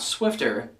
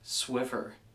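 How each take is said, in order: First: A t sound comes before the final syllable. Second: No t sound comes before the final syllable. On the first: The speaker calls it wrong. "It's not Swifter" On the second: The speaker calls it right. "It is indeed Swiffer"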